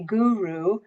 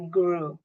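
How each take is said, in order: First: The word is said at a slower pace. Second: The word is said very quickly. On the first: This is how the speaker's own group says it. "we say guru" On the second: This is how the other group says it. "They say it really fast"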